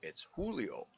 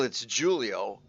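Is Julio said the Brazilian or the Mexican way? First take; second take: Mexican; Brazilian. First: Julio is said with a Mexican Spanish pronunciation. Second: Julio is said with a Brazilian Portuguese pronunciation.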